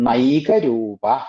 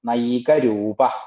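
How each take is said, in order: No difference in how they are said.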